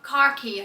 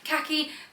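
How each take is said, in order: First: The word is said with an R sound. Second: The word is said without an R sound. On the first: "with an R in it" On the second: "the way I say khaki"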